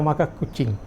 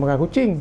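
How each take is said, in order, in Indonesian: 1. Konsonan pertama kedua kata itu dipanjangkan. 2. Konsonan pertama kedua kata itu pendek. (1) "sabdu pada makan tu, dan satu lagi sabdu pada kucing" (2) "bukan ikan tu makan kucing"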